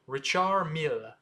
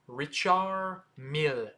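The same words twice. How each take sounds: First: The name is said at a faster pace. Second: The name is said at a slower pace.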